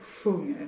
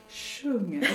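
First: The first sound is made low and dark. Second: The first sound is made high and sharp. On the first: "her eyebrows came way down low for the low one" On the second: "So we raise everything up"

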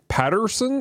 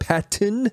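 First: The middle syllable sounds like 'ter'. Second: The middle syllable sounds like 'tin'. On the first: The speaker calls it wrong. "I kept calling him Robert Patterson" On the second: The speaker calls it right. "instead of Patton, not Patterson"

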